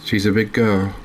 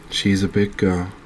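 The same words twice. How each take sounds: The two takes are said the same way.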